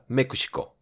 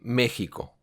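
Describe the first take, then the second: First: It is pronounced with Japanese sounds. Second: It is pronounced with Spanish sounds.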